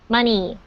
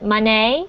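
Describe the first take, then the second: First: The final vowel is a clear 'ee' sound. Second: The final vowel is not a clear 'ee' sound. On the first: The speaker calls it right. "almost like the letter E in our alphabet. It's mun E" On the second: The speaker calls it wrong. "a lot of foreign language learners pronounce it money"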